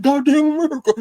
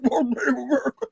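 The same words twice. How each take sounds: First: Loud, high preacher's cry of Goddamn America; shouted quote. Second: High quoted cry. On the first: Quoting Jeremiah Wright's sermon, high and loud. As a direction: call it out loud and high like from the pulpit. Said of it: "he said". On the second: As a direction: lift it high without pushing the volume. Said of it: "He said". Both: Retold or imitated.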